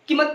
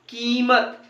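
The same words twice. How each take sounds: First: The first vowel is short and quick. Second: The first vowel is stretched long. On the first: The speaker calls it wrong. "कीमत नहीं बोलते हैं" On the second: The speaker calls it right. "तो की खींच रहे हैं हम उसको"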